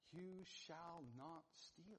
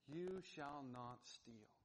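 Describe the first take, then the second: First: It is said gently, like a reassuring promise. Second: It is said sternly, like a command. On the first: It is an assurance of who the listener will become. "speaking these words over him as a promise" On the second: It is a judgment against the listener. "in the tone of a command with an air of judgment"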